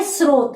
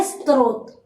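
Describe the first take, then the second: First: स्रोत said as plain "srot", no t sound; स्रोत as "s-rot", s straight into r; how we say it. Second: स्रोत said as "strot", extra t before the r; स्रोत with a t slipped in, "s-t-rot"; how we write it. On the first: Teacher showing students the spoken srot. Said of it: "अपन बोल क्या रहे?". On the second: Teacher showing students the common strot spelling. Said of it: "अपन लिख क्या रहे?". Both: Shown as a demonstration.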